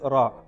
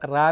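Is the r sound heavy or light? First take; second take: heavy; light. First: The r is heavy and full. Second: The r is light and flat. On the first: The speaker calls it right. "കനപ്പിക്കണ്ടേ" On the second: The speaker calls it wrong. "നിങ്ങൾ റാ എന്നാ പറയണത്"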